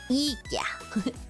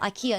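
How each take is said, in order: First: The name is said the Swedish way. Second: The name is said the usual English way. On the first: The speaker calls it right. "now we got a Swed and like chat. I got to pronounce it correctly" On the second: The speaker calls it wrong. "I know I said IKEA"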